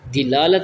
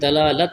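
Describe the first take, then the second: First: The first vowel sounds like 'i'. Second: The first vowel sounds like 'a'. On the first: The speaker calls it wrong. "नहीं होता" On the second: The speaker calls it right. "बल्कि दलालत होती है"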